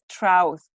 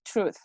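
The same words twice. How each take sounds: First: "trouth" with an ow vowel for truth; mispronunciation. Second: "truth" with an oo vowel; correct pronunciation. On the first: Teacher showing the mistake to avoid, mispronunciation. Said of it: "is not trouth". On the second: Teacher correcting students' word, correct pronunciation. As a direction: say "truth" as trooth. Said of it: "It's truth". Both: Shown as a demonstration.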